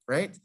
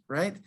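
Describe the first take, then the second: Both takes have the same delivery.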